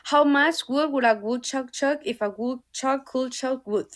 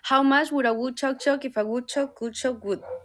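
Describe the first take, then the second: First: It is read at a normal speed. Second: It is read noticeably faster.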